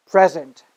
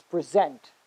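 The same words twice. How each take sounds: First: PREsent, stressed on the first syllable. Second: PreSENT, stressed on the second syllable. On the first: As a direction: say "present" as the noun, punching "pre". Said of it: "stress on the first syllable". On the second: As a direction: say "present" as the verb, weight on "sent". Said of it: "stress on the second syllable". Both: Shown as a demonstration.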